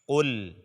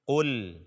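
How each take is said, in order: No difference in how they are said.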